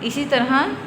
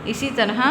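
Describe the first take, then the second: The two takes are said the same way.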